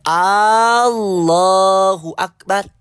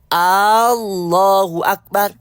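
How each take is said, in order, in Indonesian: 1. Vokal A di awal dipanjangkan. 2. Vokal A di awal dipanjangkan.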